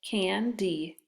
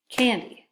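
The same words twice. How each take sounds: First: CAN, then DEE, with a gap between; split syllables. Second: Said in the usual way. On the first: Shown as a demonstration. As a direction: sound out candy as two separate syllables, can and dee. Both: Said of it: "the second syllable is open".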